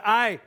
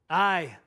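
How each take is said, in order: First: Loud, emphatic Scottish-tinged "Aye"; bold reply. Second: A light Scottish "Aye"; faint Scottish accent. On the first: Pastor quotes Wallace answering his soldier, loud and bold. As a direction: call out "Aye" boldly. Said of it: "Wallace responded boldly". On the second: Pastor quotes Wallace's bold reply, faintly Scottish. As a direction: give "Aye" just a touch of Scottish. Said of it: "that's the most Scottish you're gonna get". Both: Retold or imitated.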